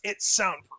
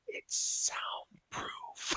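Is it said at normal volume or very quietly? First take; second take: normal; quietly. First: It is said at a normal volume. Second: It is said almost silently.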